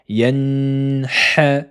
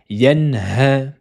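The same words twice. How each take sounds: First: The n is held nasally, with another h sound. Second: The n is plain, with no held nasal sound. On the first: The speaker calls it wrong. "en disant la lettre ha et en ajoutant une runna" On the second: The speaker calls it right. "Mais c'est yanha"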